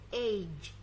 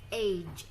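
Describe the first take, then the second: No difference in how they are said.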